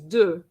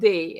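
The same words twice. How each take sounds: First: The vowel sounds like French deux. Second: The vowel sounds like a Spanish e. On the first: The speaker calls it right. "it's de, like number two" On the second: The speaker calls it wrong. "so it's not de"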